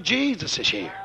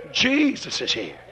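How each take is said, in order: First: Said in the usual way. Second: "Jesus is here" low, soft and slow; hushed. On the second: Shown as a demonstration. Preacher telling the congregation, hushed and slow. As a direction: let "Jesus is here" sink to a reverent hush. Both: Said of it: "repeated softer".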